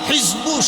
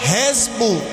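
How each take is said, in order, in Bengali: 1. প্রথম স্বরধ্বনিটি 'i'। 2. প্রথম স্বরধ্বনিটি 'e'। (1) "জেরের উচ্চারণ আমরা রস্বীকার দিয়ে করি" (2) "স্পষ্টভাবে লেখা আছে হেজবু"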